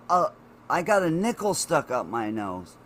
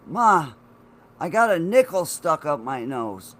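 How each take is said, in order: First: Said in the usual way. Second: Loudly blurting it out to mom; alarmed, pushing the news out; urgent announcement, louder. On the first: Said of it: "repeats after mom's "What?". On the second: Retold or imitated. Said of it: "I'm like".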